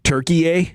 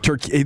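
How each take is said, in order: First: The name ends with an extra third syllable. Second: The name is said with just two syllables. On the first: It is the more authentic native name. "they're pronouncing Turkey Turkey a" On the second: It is the usual English name. "instead of Turkey"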